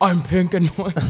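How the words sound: It is said in a Bane impression voice.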